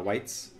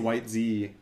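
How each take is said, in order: First: The name is said with one syllable. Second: The name is said with two syllables. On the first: The speaker calls it right. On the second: The speaker calls it wrong.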